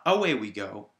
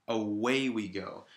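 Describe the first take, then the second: First: "away" punched loud on the A, AY-way; stress on first syllable. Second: "away" stressed on WAY, first A light; stress on second syllable. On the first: Teacher contrasting the wrong reading, "away" stressed on A. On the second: Teacher giving the correct reading, "away" stressed on way. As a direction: put the beat on the "way" of "away". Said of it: "That the stressed syllable is on way". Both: Shown as a demonstration.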